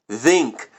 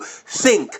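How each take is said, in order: First: The th is voiced, with the voice buzzing. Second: The th is voiceless, with only air. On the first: It suggests a machine-generated voice. The speaker calls it wrong. "they vocalize it" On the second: It is how people normally say it. The speaker calls it right. "with only air flowing between the tongue and the teeth"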